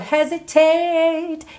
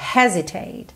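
First: The stress is on the last syllable. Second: The stress is on the first syllable. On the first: "Esse tate acabou crescendo" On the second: "a sílaba tônica dessa palavra é a primeira"

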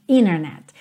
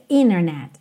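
No difference in how they are said.

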